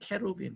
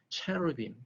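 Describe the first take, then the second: First: It is said the English way, starting with k. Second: It is said the English way, starting with ch. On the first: "혹은 케루빔" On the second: "영어 발음은 어, 체루빔"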